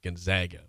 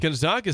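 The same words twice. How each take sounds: First: The middle vowel is a flat 'a', like 'zag'. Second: The middle vowel is an open 'ah', like 'zog'.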